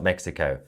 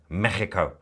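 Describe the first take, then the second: First: The middle consonant is a plain 'ks' sound. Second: The middle consonant is a harsh throaty rasp. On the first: The speaker calls it wrong. "not Mexico" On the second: The speaker calls it right. "I'm very good at using my phlegm"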